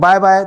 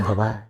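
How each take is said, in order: First: It is pushed harshly from the throat. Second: It is said softly, not from the throat. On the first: It sounds aggressive and hostile. The speaker calls it wrong. "गले से बोलोगे ऐसे" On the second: It sounds friendly. The speaker calls it right. "यहाँ ओके"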